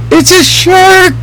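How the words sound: The voice is at its highest pitch. The shark is very big. "The voice goes up and up and up"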